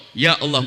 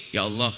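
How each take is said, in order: First: Calm, humble prayer; doa yang baik. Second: Soft, sighing complaint; doa mengeluh. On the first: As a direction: address God sincerely, without complaint. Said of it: "mestinya jangan ngomong gitu dong". (doa tulus dan tenang) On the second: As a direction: murmur it like a grudging prayer. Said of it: "dia ngomong gini". (doa mengeluh, pelan dan lirih) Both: Retold or imitated.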